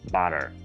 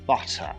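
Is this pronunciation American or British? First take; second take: American; British. First: American accent; the R after the vowel is sounded. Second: British accent; the R after the vowel is silent. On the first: "американський варіант" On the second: "британський"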